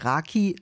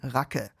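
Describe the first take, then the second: First: The word ends in a clear 'ee' vowel. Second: The word ends in a dull 'uh' vowel. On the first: The speaker calls it wrong. "es heißt nicht Raki" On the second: The speaker calls it right. "sondern Rake"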